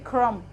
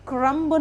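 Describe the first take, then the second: First: The word ends on m, b silent. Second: A b sound is heard at the end. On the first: The speaker calls it right. "उसमें बी silent होता है तो उसको हम बोलते हैं क्रम" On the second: The speaker calls it wrong. "क्रम्ब नहीं होता"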